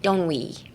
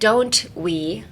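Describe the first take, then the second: First: The two words are blended into one word. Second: The two words are said separately and distinctly. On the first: The speaker calls it right. "use it as one word, like" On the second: The speaker calls it wrong. "don't say don't we"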